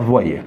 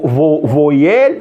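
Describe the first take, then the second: First: "voyelle" said vwa-yel, with a w glide; correct pronunciation. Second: "voyelle" drawn out slowly as vo-yel, with a plain o; spelling pronunciation. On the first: Teacher showing how it is really pronounced, "voyelle" as vwa-yel. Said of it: "Mais on la prononce". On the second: Teacher showing the class the spelling, "voyelle" sounded vo-yel. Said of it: "ça s'écrit vo". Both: Shown as a demonstration.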